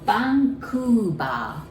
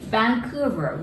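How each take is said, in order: First: It begins with a B sound. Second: It begins with a V sound.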